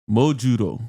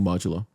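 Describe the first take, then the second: First: It is said with a Japanese pronunciation. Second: It is said with an English pronunciation.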